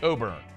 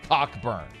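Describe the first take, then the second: First: The name has no k sound in it. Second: The name has a clear k sound in it. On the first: The speaker calls it wrong. "It's not Coburn" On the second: The speaker calls it right. "The man's name is Cockburn"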